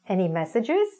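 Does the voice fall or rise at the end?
rise. The voice rises at the end. It is asked as a real, hopeful question. The speaker calls it right. "as in a question"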